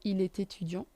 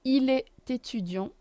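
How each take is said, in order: First: "est étudiant" run together with a T; liaison. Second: "est étudiant" linked with a T sound; liaison. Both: Shown as a demonstration.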